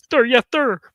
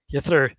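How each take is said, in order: First: Higher and louder, drill-sergeant style; mock military shout. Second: Said in the usual way. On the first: Mocking the strict band director, loud mock salute. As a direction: bark it like a recruit, hammed-up.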